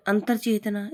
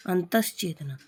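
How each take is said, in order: First: अंतरचेतना with an r before che; wrong form अंतरचेतना. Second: अंतश्चेतना with sh before che; correct form अंतश्चेतना. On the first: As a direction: say अंतरचेतना as antar-chetna. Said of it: "इस तरह नहीं लिखा जाता". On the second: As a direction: say अंतश्चेतना as antash-chetna. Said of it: "से आता है इसमें". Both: Shown as a demonstration.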